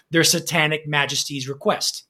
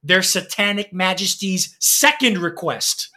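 First: Said in the usual way. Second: "Second" picked out with emphasis; stress on Second. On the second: Real, not acted. Announcing a cheekily titled album, stress on "Second".

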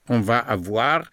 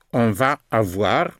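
The two takes are said the same way.

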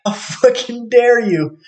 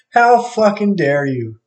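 First: High, slow outraged jeer; mock outraged. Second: Slow mock indignation, high; mock outraged. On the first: Imagined reply to someone he's angry at, high and slow mocking outrage. Repeated imagined spiteful outburst. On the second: Repeating the imagined jab at someone he's angry at, slow mocking outrage. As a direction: drag the words out, jeering.

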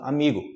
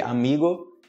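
First: "amigo" ending in "gu"; everyday final U. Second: "amigo" ending in a clear "go"; spelled-out final O. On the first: Teacher showing how people speak, "amigo" ending in "gu". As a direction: close the end of "amigo" to "goo". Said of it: "gu no final". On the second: Teacher showing the correct written form, "amigo" ending in "go". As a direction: keep a full round O ending "amigo". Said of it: "amigo está correto". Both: Shown as a demonstration.

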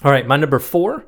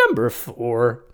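First: Said in the usual way. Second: Put-on thin squeaky boyish voice. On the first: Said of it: "I'm just trying to be different". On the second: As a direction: do a silly squeaky kid voice. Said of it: "You sound like a squeaky boy".

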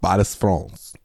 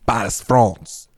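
First: Paris, France with a lightly put-on French accent; mock French accent. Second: Put-on slowly drawn-out French-accented Paris, France; slow mock French accent. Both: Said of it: "just me saying things".

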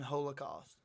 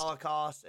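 First: First syllable of Holocaust like hole; Holocaust with long O. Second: First syllable of Holocaust rhymes with doll; Holocaust with short O. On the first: Co-host gives the second pronunciation, Holocaust as HOLE-uh-cost. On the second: Co-host lists two pronunciations, Holocaust as HOLL-uh-cost. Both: Shown as a demonstration. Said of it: "two pronunciations".

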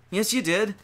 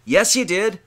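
First: Said in the usual way. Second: Louder, higher call-out of the excuse; firm rebuke. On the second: Acted. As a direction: hit back at the sinner's excuse. Preacher rebuts imagined sinner.

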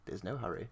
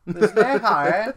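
First: Mocking English accent. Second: Loud, high, drawn-out mock English accent. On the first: Showing a friend Larry's line, mock English accent. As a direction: quietly imitate a put-on English accent. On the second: Echoing a friend's film quote, hammed-up English accent. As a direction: exaggerate a silly English accent at full volume. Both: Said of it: "he's doing a mocking English accent".

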